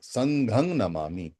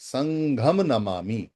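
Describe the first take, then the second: First: The first word ends with an 'ang' sound. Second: The first word ends with an 'am' sound. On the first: This is the old Pali form. "अंग आता है पाली के अंदर" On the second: This is the Sanskrit form. "हम इसको संस्कृत भाषा में बोल सकते हैं"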